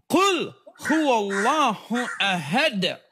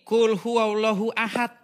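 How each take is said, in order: First: The consonants are said with an echoing bounce. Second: The consonants are said plainly without an echoing bounce. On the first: The speaker calls it right. "Bacanya harus kul kul huwallahu ahad" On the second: The speaker calls it wrong. "Oh salah, bukan kul huwallahu ahad"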